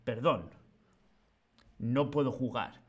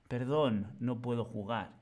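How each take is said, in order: First: There is a pause after the first word. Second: It is said as one phrase without a pause. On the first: The speaker calls it wrong. "No es" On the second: The speaker calls it right. "Unimos la disculpa a decir que no y lo damos todo junto"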